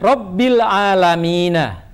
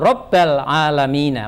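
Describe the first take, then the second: First: The first word ends with an i vowel. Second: The first word ends with an a vowel. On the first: The speaker calls it right. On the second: The speaker calls it wrong.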